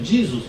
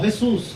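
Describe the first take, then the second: First: The name is said the American English way. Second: The name is said the Spanish way. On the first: "um americano" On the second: "o espanhol"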